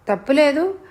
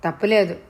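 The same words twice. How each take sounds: First: తప్పులేదు raised high with a questioning rise; disbelieving echo. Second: Said in the usual way. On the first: A narrator's reading. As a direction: throw తప్పులేదు back as a shocked question. She throws his words back. (తప్పులేదు అని పైస్థాయిలో ప్రశ్నగా)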